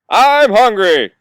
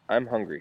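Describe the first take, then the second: First: It is yelled very loudly. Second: It is said at normal loudness.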